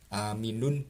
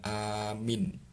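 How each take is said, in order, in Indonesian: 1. Kata ini berakhir dengan suku kata '-un' penuh. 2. Kata ini berakhir dengan 'n' biasa yang diam. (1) "tulisannya aminun" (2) "kita baca amin"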